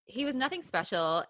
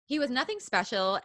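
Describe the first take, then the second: No difference in how they are said.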